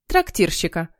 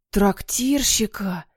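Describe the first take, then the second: First: Said in the usual way. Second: Slow, drawn-out echo; savouring delight. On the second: A narrator's reading. Henry hears his role and beams, savouring it. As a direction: stretch the word out in wonder.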